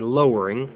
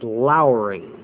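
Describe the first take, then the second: First: The first syllable sounds like the word 'low'. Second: The first syllable sounds like the word 'lour'. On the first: The speaker calls it wrong. "You normally read over the passage and you say lowering" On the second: The speaker calls it right. "but the proper pronunciation is lowering"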